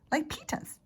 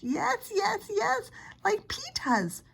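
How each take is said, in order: First: A lightly voiced small child, higher; little boy voice. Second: Shrill, much higher insistent yes; hollering toddler. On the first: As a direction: say it like a toddler copying his big brother. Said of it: "he said". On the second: Acted. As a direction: yell it like a stubborn small boy. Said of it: "Fudge hollered".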